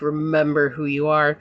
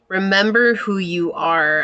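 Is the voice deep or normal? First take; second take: deep; normal. First: It is said in a deep, Mufasa-like voice. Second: It is said in her normal voice.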